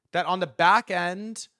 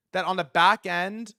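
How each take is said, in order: Both takes have the same delivery.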